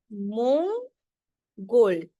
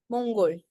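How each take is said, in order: First: Mongol stretched very slowly, each part held; teacher slowing Mongol right down; very slow demo. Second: Said in the usual way. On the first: Shown as a demonstration. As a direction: draw out Mongol so every sound can be heard. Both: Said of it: "नीचे वाले अंग को pronounce करते हैं".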